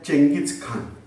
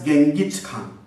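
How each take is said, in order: First: The name starts with a 'cheng' sound. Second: The name starts with a hard 'geng' sound. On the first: This is how the name is usually said locally. "We are pronouncing as" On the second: This is the English form of the name. "in English he is marked as"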